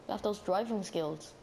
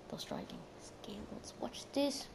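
First: Said in the usual way. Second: Whispered, slow, rising on skills. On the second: Shown as a demonstration. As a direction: hush it like a secret boast.

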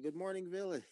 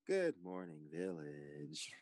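First: High, singled-out morning greeting; wake-up call. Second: Drawn-out greeting, sinking low and soft; hushed wake-up call. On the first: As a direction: call the players awake in a higher voice. Moderator wakes the players. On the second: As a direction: let the last word fade into a whisper. Moderator redoes the wake-up greeting. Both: Pretend.

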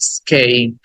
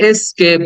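First: Low falling "স্কেপ" as "i-skeip"; correct pronunciation. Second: "এস্কেপ" starting on "e"; common mispronunciation. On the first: Teacher corrects students, "স্কেপ" with no "es-". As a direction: say "স্কেপ" with hardly any opening vowel. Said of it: "but উচ্চারণ হবে". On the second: Teacher quotes what we say, "এস্কেপ" with "es-". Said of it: "আমরা এটাকে এস্কেপ বলি". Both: Shown as a demonstration.

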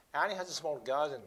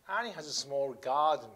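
First: "Annie has a small garden" at normal pace with the words run together; linked natural reading. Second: "Annie has a small garden" said slowly, each word set apart; slow careful reading. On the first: Teacher shows the linked natural reading to students. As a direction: let the words link smoothly into each other. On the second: Teacher reads slowly to show each sound. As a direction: spell the sentence out word by word. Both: Shown as a demonstration. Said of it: "リエゾンと言ってくっつくから".

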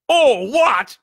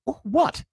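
First: Very loud, high outraged shout; thundering. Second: Put-on high, questioning boy's voice; puzzled boy. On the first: Giant echoes the boy's question, thundering. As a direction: thunder it back in disbelief. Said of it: "Hagrid thundered". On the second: Boy asks the ranting giant, puzzled and high. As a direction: squeak out a confused question. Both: A narrator's reading.

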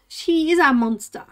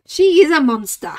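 First: Said in the usual way. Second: Louder playful exclamation; mock outrage. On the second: Real, not acted. Complaining about her cat, a loud mock outburst.

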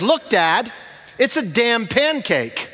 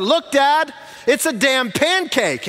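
First: Outside voice. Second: Imitating a child shouting high across a restaurant; high-pitched mock shout, drawn out at the end; really loud. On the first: Retold or imitated. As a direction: declare it in a child's outside voice, raised pitch. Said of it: "declares in his outside voice". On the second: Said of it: "said it a second time really loud".

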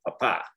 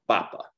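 First: PaPA, emphasis shifted to the end; stress on last syllable. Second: PApa, falling away after the first syllable; stress on first syllable. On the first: Teacher shows what an accent mark does, papa stressed on last syllable. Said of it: "shift the emphasis of our pronunciation". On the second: Teacher repeats the natural emphasis, papa stressed on first syllable. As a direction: stress the opening syllable of papa, drop the last. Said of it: "emphasized on the second to last". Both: Shown as a demonstration.

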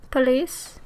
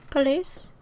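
No difference in how they are said.

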